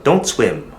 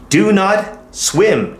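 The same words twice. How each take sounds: First: Said in the usual way. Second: Slow full form. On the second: Shown as a demonstration. Teacher drilling the full form slowly for the class. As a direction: Do not swim, very slow, Do higher and weighted.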